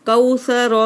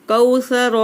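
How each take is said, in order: The two takes are said the same way.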